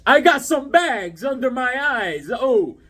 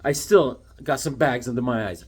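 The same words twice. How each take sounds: First: Higher, slower, whiny complaint; mock tired whine. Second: Said in the usual way. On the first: Shown as a demonstration. Tired collector moaning to viewers, slow and high. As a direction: drag it out like you're exhausted. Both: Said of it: "show you how tired I've been".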